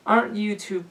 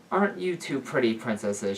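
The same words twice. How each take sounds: First: Put-on high cooing older woman. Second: Said in the usual way. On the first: A narrator's reading. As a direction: coo it sweetly, pitched up. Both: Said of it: "she cooed softly".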